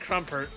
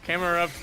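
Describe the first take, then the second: First: The name is squeezed into two syllables. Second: The name is said with three syllables.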